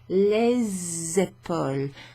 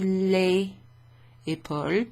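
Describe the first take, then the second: First: The s of les sounds like z. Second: The s of les is silent. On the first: The speaker calls it right. "it becomes les épaules, and it's pronounced like a Z" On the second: The speaker calls it wrong. "instead of les épaules"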